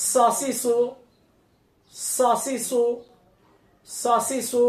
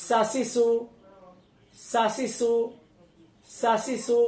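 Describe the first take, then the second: First: সাসিসু with a thick, heavy স from the back of the tongue; সাসিসু said full and heavy, mouth hollowed; heavy sad. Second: সাসিসু with a thin, light স, tongue forward; সাসিসু said light and thin, no heaviness; thin sin. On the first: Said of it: "সাদটা মোটা হবে". (সাসিসু মোটা করে, ভারী স) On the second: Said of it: "সিনটা পাতলা হবে". (সাসিসু পাতলা করে, হালকা স) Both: Shown as a demonstration.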